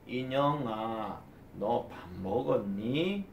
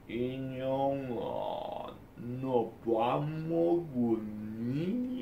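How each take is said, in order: First: It is said somewhat slowly. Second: It is said extremely slowly, dragging.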